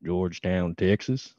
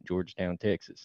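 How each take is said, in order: First: Put-on Texas accent, pitched a little low; deliberate Texas twang; Southern accent. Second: Soft, understated Texas accent; natural, quieter Texas twang; more normal Southern accent. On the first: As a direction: say the town in a self-conscious Southern accent. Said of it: "Let me hear your Southern accent". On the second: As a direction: tone the Southern accent down, much softer. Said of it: "make it sound a little more, like, normal". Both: Shown as a demonstration.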